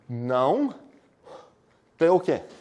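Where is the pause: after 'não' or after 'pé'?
after não. A pause comes right after the word não. The negation covers the whole disjunction. The speaker calls it right. "eu vou pronunciar assim"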